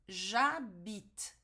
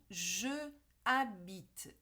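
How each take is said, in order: First: The vowel of je is dropped and joined. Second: The vowel of je is pronounced separately. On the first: The speaker calls it right. "ele cai, ele some, ele desaparece" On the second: The speaker calls it wrong. "Isso aqui não é possível"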